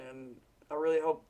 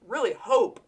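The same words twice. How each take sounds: First: Said in the usual way. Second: Really hope pushed higher and louder; emphatic repeat. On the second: Real, not acted. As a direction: lean hard on really hope the second time.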